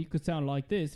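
It is said in an Australian accent. "if you're from Australia"

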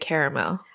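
Caramel is said the non-American way.

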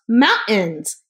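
The middle t sound is dropped. This is how it is said in Utah. "In Utah, it's pronounced mountains"

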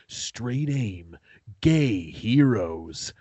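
It is read in a dramatic movie-trailer voice.

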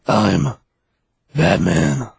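It is said with a dramatic pause.

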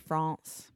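It is said with a French pronunciation. "when you get me speaking French"

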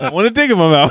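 It is said boldly, with confidence.

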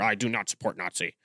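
It is said in an angry tone.

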